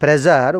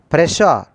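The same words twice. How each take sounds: First: The middle consonant is a voiced 'j' sound. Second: The middle consonant is a soft 'sh' sound. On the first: The speaker calls it wrong. "not pressure. We should not pronounce ja sound" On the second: The speaker calls it right. "We should pronounce sha"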